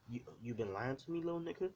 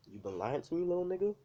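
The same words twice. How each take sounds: First: A touch of an angry father's rising question; half-heartedly accuse, pitch jumping up on the end; mild angry dad. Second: Louder, higher furious dad, jumping up on the last words; angry dad yell. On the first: Dad questions his son, mildly angry. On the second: Angry dad confronts son about lying, louder yell. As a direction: bark it at the son, pitch flying up at the end. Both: Acted. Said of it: "this is what his, his dad says exactly that".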